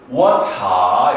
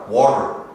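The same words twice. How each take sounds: First: British style: final R dropped, ending lengthened. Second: American style: the final R is pronounced.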